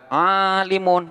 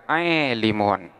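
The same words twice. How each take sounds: First: The long vowel is an open a sound. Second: The long vowel leans toward an e sound.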